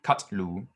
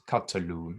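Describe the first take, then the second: First: "Katlu" said in two syllables, no vowel between t and l; wrong pronunciation. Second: "Katalu" in three syllables, ka-ta-lu, with a slight pause after ka; correct pronunciation. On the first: Teacher to student, showing the wrong reading: "Katlu" squeezed into two syllables. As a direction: run "Katlu" together as KAT-lu. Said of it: "so it's not Katlu". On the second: Teacher to student, giving the right reading: "Katalu" as ka-ta-lu. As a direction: open the first syllable, "Katalu" as KA-ta-lu. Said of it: "but it's Katalu". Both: Shown as a demonstration.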